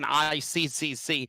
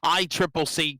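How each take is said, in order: First: Each C is spoken as a separate letter. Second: The three Cs are spoken as 'triple C'. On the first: "I was saying I C C C" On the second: "I Triple C comes out a lot easier"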